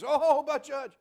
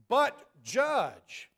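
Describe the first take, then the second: First: It sounds like a pleading excuse. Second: It sounds like a firm command.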